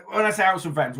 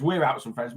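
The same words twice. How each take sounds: First: Said in the usual way. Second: We're punched to correct herself; correcting stress on we're. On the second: Shown as a demonstration. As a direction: lean on we're to show she goes too.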